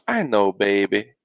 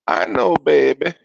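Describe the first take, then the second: First: Soothing Southern mama; Southern accent. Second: Higher-pitched Southern mama; Southern accent. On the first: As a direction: reassure a child in a light Southern accent. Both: A narrator's reading. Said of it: "That's my little Southern accent".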